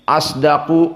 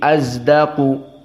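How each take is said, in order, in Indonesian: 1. Konsonan tengahnya adalah s emfatis biasa. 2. Konsonan tengahnya dibaurkan ke arah z.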